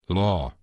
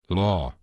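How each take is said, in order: Both takes have the same delivery.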